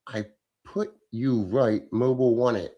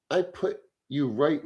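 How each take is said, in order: First: Puzzled reread. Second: Said in the usual way. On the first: Shown as a demonstration. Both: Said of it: "I don't know what the fuck you're saying".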